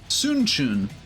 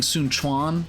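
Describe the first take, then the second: First: The second word is said like 'chwen'. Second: The second word is said like 'kwan'. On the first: The speaker calls it right. "but it's actually Sun Chun" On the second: The speaker calls it wrong. "I've been saying Sun Quan because that's how they pronounce it in like Dynasty Warriors eight"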